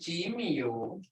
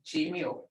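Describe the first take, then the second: First: The word is said with its melodic tone. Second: The word is said flat, without tone. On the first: It sounds like natural everyday speech. The speaker calls it right. "I can't even say that without with a tone" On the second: It sounds like someone reading it. The speaker calls it wrong. "Without a tone"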